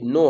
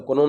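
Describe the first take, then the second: First: "नो" with the K silent, just "नो"; right pronunciation. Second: "कनो" with the silent K sounded, the way students misread it; wrong pronunciation. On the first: Teacher showing the correct reading, silent K, just "नो". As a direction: drop the K and say plain "नो". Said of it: "तो कनो नहीं है, ये नो है". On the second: Teacher demonstrating the students' misreading, K sounded as "कनो". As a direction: say "कनो" with a spoken K before "नो". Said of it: "बहुत जन इसको कनो पढ़ता है". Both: Shown as a demonstration.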